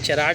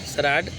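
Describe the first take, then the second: First: The word begins with a 'ch' sound. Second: The word begins with an 's' sound. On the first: The speaker calls it wrong. "चराड लिखेंगे" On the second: The speaker calls it right. "सराड पढ़ेंगे"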